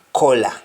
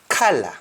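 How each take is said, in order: First: "color" said kola, with an O vowel; Jamaican pronunciation. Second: "color" said kala, with an "ah" vowel; English-style "color", open "ah" first; English pronunciation. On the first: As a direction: say "color" the Patois way, as KOH-la. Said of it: "In Jamaican we say". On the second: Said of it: "just like the English say". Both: Shown as a demonstration.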